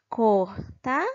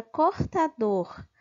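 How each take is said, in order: First: "cortador" split slowly into cor, ta, dor; sílaba por sílaba. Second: Said in the usual way. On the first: Shown as a demonstration. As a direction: say "cortador" in separate syllables, pausing before the final dor. ("cortador" devagar, separando cor - ta - dor) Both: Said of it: "saber qual é a sílaba mais forte".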